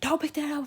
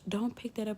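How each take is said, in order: First: It is said as a loud scream. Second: It is said in a soft, sweet voice. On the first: "or you could scream" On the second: "you could say in a nice voice"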